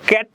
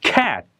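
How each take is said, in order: First: The final t is cut off without air. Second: The final t is released with air. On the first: The speaker calls it wrong. "ক্যাট ক্যাট বলে থামা যাবে না" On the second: The speaker calls it right. "হাওয়াটা বের করে দিতে হবে।"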